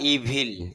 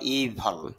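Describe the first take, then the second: First: The second syllable keeps a full i vowel. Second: The second syllable's vowel is reduced to almost nothing. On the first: The speaker calls it wrong. "ইভল বা ইভিল এভাবে বলতে পারি" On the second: The speaker calls it right. "তবে শুদ্ধ ইভল"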